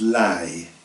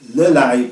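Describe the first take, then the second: First: The pronouns are merged into one short syllable. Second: Both pronouns are said fully as two syllables. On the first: This is the spoken form. "abbreviated and merged together" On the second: This is the written form. "one would express these as"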